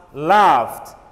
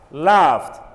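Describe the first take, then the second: Both takes have the same delivery.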